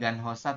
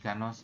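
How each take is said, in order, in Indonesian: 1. Bunyi h di tengah jelas diucapkan. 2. Bunyi h di tengah dihilangkan sama sekali. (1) "itu bukan Ganhosa" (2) "tapi Ganosa"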